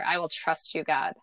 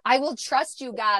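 First: The words are said in a louder voice. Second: The words are yelled at full volume. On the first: "And then I said it louder" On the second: "where I was yelling it"

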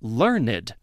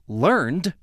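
First: The E is pronounced, giving two syllables. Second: The E is silent, giving one syllable. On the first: It is an adjective meaning having much knowledge. "The example above, learned" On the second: It is the past form of the verb learn. "would be learned as a verb"

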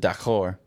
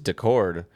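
First: The name is said like the French word. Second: The name is said in a plain English way. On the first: "but I pronounce it D'accord, which means okay in French" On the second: "I think it's just Decord"

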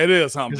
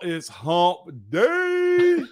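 First: It is said flatly, with little energy. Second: It is said loudly, with lively energy. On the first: The speaker calls it wrong. "That didn't sound like it to me" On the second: The speaker calls it right. "Now it sounds like it"

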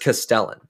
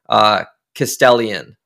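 First: The name is said with three syllables. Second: The name is said with four syllables. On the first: The speaker calls it right. "I think it's just Castellan" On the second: The speaker calls it wrong. "One I can confirm I pronounced wrong was Luke's last name"

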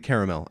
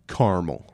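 First: It is said in a British way. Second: It is said in an American way. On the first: This is how people in the UK say it. "Maybe the UK, it's very normal to say caramel" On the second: This is how the speaker normally says it. "I say it caramel"

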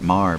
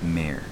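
First: The word is said as 'mar'. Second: The word is said as 'mare'. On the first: The speaker calls it wrong. "You keep pronouncing it Mar" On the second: The speaker calls it right. "but it's Mare"

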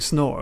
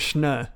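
First: It starts with a plain English 's' sound. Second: It starts with a German-style 'sh' sound. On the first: It sounds like the English word for boring. The speaker calls it wrong. "It sounds like you're saying snore, as in like it's really boring" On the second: It is a nod to a German person. The speaker calls it right. "you got to get the schnur, because he was very, very German"

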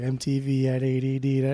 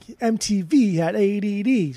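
First: It is said in a flat, monotone pitch. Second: It is said with lively, varied pitch. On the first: "And it's so monotone" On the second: "she's not like"

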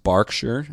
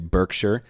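First: It is said with a British pronunciation. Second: It is said with an American pronunciation. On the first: The speaker calls it right. "it's actually pronounced Berkshire" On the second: The speaker calls it wrong. "how Americans would say Berkshire"

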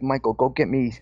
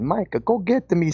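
First: It is said in the speaker's plain accent. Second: It is said in an Italian accent.

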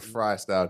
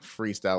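First: The first syllable sounds like 'fry'. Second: The first syllable sounds like 'free'. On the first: The name plays on the word fries. "because it's fries" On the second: The name plays on the word free. "because it's freets"

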